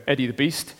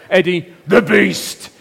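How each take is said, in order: First: Said in the usual way. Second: Louder, slow, drawn-out "Eddie the Beast"; ring announcer. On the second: Acted. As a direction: announce him like a wrestling champion. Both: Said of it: "Can we say that?".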